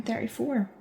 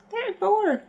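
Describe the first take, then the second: First: Said in the usual way. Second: High-pitched squeak of disbelief; disbelieving exclamation. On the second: Real, not acted. Vlogger reacting to turning thirty-four, high-pitched disbelief. Exclaims at own coming age.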